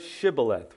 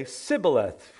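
First: Shibboleth begun with a clear SH sound; hushing SH opens Shibboleth; sh pronunciation. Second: Sibboleth begun with S in place of SH; hissing S opens Sibboleth; mispronounced with s. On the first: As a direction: say Shibboleth with "sh" at the front. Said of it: "they couldn't pronounce it". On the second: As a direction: say Sibboleth with a plain "s" at the front. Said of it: "They couldn't say the sh". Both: Shown as a demonstration.

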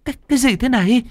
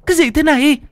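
First: High, stammering in shock; terrified gasp. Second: High and louder, panicked repeat; terrified cry. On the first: Hằng seeing her friend possessed, terrified. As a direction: recoil and stammer the question. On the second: Hằng staring at Lan in horror, panicked cry. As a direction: blurt it again, rising to a cry. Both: Acted. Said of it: "thì kinh hãi".

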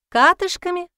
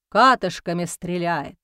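First: High, startled repeat of a word; puzzled question. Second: Said in the usual way. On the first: A narrator's reading. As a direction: ask it back in disbelief. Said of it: "не поняла Алевтина".

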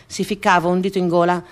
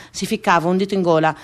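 Both takes have the same delivery.

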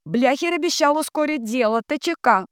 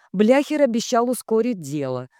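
First: Very high chanted relay; high-pitched echoing drone; entranced telegraph operator. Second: Measured, raised-pitch statement; clear, steady dictating voice; telegram dictation. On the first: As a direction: transmit the last line up high. Dunya echoes the telegram. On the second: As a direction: dictate the closing line. Ratibor dictates. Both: A narrator's reading.

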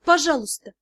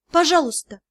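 First: Quieter, gentler plea; softer pleading. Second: Pleading. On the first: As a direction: ask again more softly. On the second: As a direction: beg him outright. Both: Acted. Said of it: "я с мольбой посмотрела".

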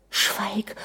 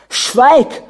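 First: Softly whispered plea for silence; urgent hush. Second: Loud, high shouted order; furious command. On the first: Anna begs her raging husband to stop, hushed. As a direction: hush him under your breath. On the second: Prince orders his wife to be silent, shouting. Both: A narrator's reading.

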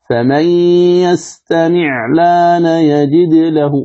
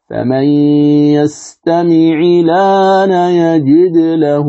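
First: Slow chant, "يستمع الآن" as yastami'-laana with vowelless 'ayn; level tajweed chant, no vowel on ع in "يستمع"; wrong sukun. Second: Slow chant, "يستمع الآن" as yastami'i-laana with i after 'ayn; level tajweed chant, kasra on ع in "يستمع"; correct kasra. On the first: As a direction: recite slowly with the ع of "يستمع" closed straight onto the lam. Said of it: "هذا خطأ". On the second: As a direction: recite slowly, giving the ع of "يستمع" a short i before the lam. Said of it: "هذا الصواب". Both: Shown as a demonstration.

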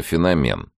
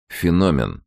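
First: «феномен» stressed at the end, феноме́н; stress on the last syllable. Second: «Феномен» stressed on the second syllable, фено́мен; corrected stress. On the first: Petyunya insisting on his own stress: «феномен» as феноме́н. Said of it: "Мне больше нравится феномен". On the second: Professor correcting Petyunya's stress: «Феномен» as фено́мен. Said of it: "поправил его профессор". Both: A narrator's reading.

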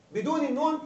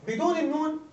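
No difference in how they are said.

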